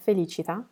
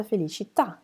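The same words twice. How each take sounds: First: "felicità" stressed on the ci, last syllable light; stress before last syllable. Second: "Felicità" landing firmly on the final tà; stress on last syllable. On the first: Teacher giving the word for happiness, "felicità" stressed fe-li-CI-ta. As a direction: lean on CI in "felicità". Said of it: "It's a totally different sounding word". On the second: Teacher naming a Florence church, "Felicità" stressed on the final tà. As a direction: hit the TÀ ending of "Felicità". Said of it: "there's an accent over the last". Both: Shown as a demonstration.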